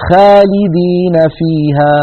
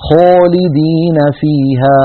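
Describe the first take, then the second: First: خالدين with a light, thin front a, slow; thin alif. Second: خالدين with lips pushed forward, alif sounding like o, slow; rounded alif. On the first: Teacher imitates the wrong thin alif. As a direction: say خالدين with the alif not emphasized. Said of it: "أين التفخيم". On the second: Teacher imitates the wrong rounded alif. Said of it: "خلط صوت الألف بصوت الواو". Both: Shown as a demonstration.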